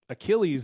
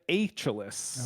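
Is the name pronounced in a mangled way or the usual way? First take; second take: usual; mangled. First: The name gets its usual pronunciation. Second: The name gets a mangled, unusual pronunciation. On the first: The speaker calls it right. "Achilles, yes" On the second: The speaker calls it wrong. "as he said it"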